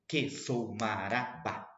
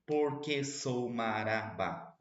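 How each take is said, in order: First: "Que sou marabá" slowly, syllable by syllable; rhythmic scansion. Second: "Porque sou marabá" slow, with the extra syllable; wrong rhythm demo. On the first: Teacher showing the class the right rhythm, slow. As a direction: count out the five beats of "Que sou marabá". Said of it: "pra ter cinco sílabas poéticas". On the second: Teacher showing the class the wrong version, slow. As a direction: drag out "Porque sou marabá" to show it breaks the beat. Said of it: "Senão ficaria assim". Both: Shown as a demonstration.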